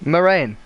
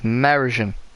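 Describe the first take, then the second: First: The name is said short, like 'my rain'. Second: The name is said with several syllables. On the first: The speaker calls it right. "you pronounce it Merain. Ah, like, Merain" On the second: The speaker calls it wrong. "I don't know how to pronounce his name"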